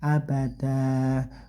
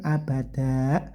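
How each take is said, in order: First: The word ends on a lengthened open vowel. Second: The word ends with a sharp glottal stop. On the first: The speaker calls it right. "tapi abada" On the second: The speaker calls it wrong. "kayak ada huruf hamzahnya tidak ya"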